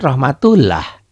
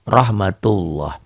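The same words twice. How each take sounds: First: Rahmatullah with a thin "lah" ending; read as written. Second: Rahmatullah with a thick "loh" ending; correct recitation. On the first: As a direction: say rahmatullah with an open A in the last syllable. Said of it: "L-nya dibaca lah". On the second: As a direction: slowly round the end of rahmatullah into an O. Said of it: "dalam bacaan dibaca loh". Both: Shown as a demonstration.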